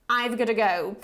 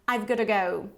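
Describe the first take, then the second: Both takes have the same delivery.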